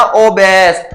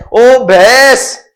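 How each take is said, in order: First: Said in the usual way. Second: ओबेस stretched very slowly, rising at the end; slow teaching drawl on ओबेस; drawn-out ओबेस. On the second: Shown as a demonstration. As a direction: draw out ओबेस syllable by syllable with a lift at the end.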